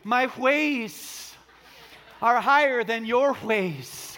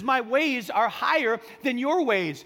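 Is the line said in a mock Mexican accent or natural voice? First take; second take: mock accent; natural. First: It is said in an exaggerated mock Mexican accent. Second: It is read in the speaker's own natural voice.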